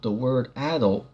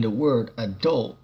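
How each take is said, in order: First: AD-ult, stress up front; adult stressed on first syllable. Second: A-DULT, stress on the end; adult stressed on second syllable. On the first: Teacher restating the word adult, stressed AD-ult. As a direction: say adult with the weight on AD-. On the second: Teacher defining the word adult, stressed a-DULT. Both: Shown as a demonstration. Says the word both ways.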